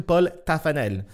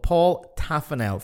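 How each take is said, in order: First: Paul Taffanel in French pronunciation; short French vowel in Paul, Taffanel evenly stressed; French version. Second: Paul Taffanel with English "Paul"; Paul Taffanel read the English way; anglicized name. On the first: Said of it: "French version". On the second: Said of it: "give you the anglicized and the French". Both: Shown as a demonstration.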